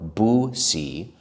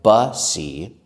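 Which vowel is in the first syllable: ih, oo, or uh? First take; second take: oo; uh. First: The first vowel sounds like 'oo'. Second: The first vowel sounds like 'uh'. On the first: "It looks like bussy or boosie, but we don't say it that way" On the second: "It looks like bussy or boosie, but we don't say it that way"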